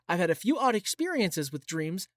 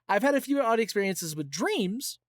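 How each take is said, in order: First: The word dreams carries no special emphasis. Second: The word dreams carries strong emphasis. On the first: The speaker calls it wrong. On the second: The speaker calls it right.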